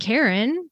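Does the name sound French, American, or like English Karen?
like Karen. The name sounds like the English name Karen. This is the closest familiar English name. "I grew up saying Karen because I was French, and the closest English name that I knew is Karen"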